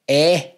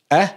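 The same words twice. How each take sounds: First: "Eh" open and longer, as in sex; open sex vowel. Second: "Eh" short and centred, as in Scottish six; short six vowel. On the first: YouTuber isolating the vowel of sex for viewers, higher and longer. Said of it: "It's completely different". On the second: YouTuber isolating the vowel of six for viewers, short and careful. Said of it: "can tell the difference between eh". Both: Shown as a demonstration.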